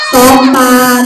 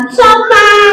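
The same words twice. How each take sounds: First: Said in the usual way. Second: High puppet voice; high-pitched obedient echo; puppet pupil. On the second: Acted. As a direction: parrot it high as a little puppet. Puppet repeats the modelled word.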